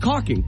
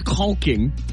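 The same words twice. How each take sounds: First: The L sound is silent in the word. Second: The L sound is pronounced in the word. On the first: The speaker calls it right. "it's a silent L" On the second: The speaker calls it wrong. "No one says caulking"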